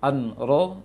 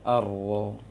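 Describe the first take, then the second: First: The n is pronounced clearly before the r. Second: The n merges into the following r sound. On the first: The speaker calls it wrong. "an-ro dibaca ar-ro" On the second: The speaker calls it right. "dibaca ar-ro"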